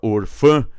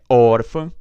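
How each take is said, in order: First: The stress falls on the last syllable. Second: The stress falls on the first syllable. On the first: The speaker calls it wrong. "nada de orfã" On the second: The speaker calls it right. "é órfã"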